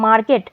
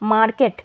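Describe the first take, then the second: The two takes are said the same way.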